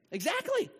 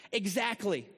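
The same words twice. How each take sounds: First: Much higher, louder burst of approval; a delighted yelp of agreement; excited agreement. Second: Said in the usual way. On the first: Real, not acted. Pastor cheering the congregation's answer, high and excited. Congregation names joyful [name].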